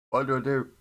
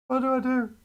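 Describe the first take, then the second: First: Loud, fed-up question; exasperated. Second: Much higher, loud desperate wail. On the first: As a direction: throw it out to chat in frustration. Torn over model choice. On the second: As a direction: cry it out in mock despair. Torn over model choice, louder. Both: Real, not acted.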